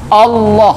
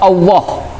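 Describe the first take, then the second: First: The tongue presses firmly behind the upper teeth. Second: The tongue does not press behind the upper teeth. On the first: The speaker calls it right. "lidah kita itu menopang bagian atas di pangkal gigi" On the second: The speaker calls it wrong. "itu salah. Karena lidahnya tidak menopang bagian atas"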